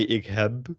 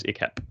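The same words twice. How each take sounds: First: "ik heb" with a voiced b ending; slow "ik heb", buzzing final b; overdone voiced B. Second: "ik heb" said like "ik hep"; natural Dutch "ik heb" with final p; devoiced final B. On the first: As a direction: say "ik heb" dramatically, sounding the b. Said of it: "That sounds a bit dramatic". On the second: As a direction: end "heb" on a crisp p. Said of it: "You would say it's". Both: Shown as a demonstration.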